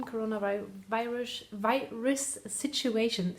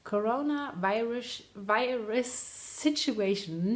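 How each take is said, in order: First: Stumbling over "coronavirus, virus situation"; tongue-tripped. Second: "Coronavirus, virus situation" slowly, piece by piece; careful tongue-twister. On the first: Real, not acted. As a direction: trip on "virus" and restart it mid-phrase. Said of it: "Say that three times fast". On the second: Shown as a demonstration. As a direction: drag out "virus situation" slowly to get it right. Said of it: "Not that easy".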